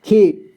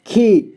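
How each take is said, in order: First: खी with a long held ई, as in खी; long ee vowel. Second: खी with a short clipped ई, as in खि; short i vowel. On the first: Teacher shows the long ई in खी, stretched. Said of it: "ख में बड़ी की मात्रा". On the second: Teacher shows the short ई in खी, clipped. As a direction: say खी briefly, the ई cut short. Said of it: "ई को कम समय में उच्चारण करेंगे". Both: Shown as a demonstration.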